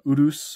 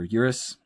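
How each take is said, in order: First: It is pronounced in an Italian way. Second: It is pronounced in an English way.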